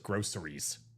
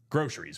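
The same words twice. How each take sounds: First: The middle consonant is an s sound. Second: The middle consonant is a sh sound. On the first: Someone else says it this way. "like you think she's spelling it G R O S S" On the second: This is the speaker's usual way of saying it. "the C is not a K or sh, like we say"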